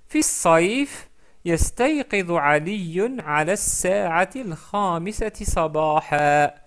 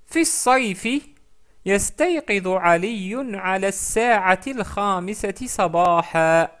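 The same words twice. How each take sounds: No difference in how they are said.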